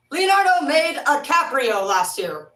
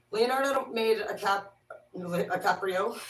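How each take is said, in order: First: Louder, higher and slow; hammed-up loud slow repeat; loud drawn-out joke. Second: Said in the usual way. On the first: Real, not acted. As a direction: belt out the flubbed name for laughs. Repeats the flubbed name as a joke.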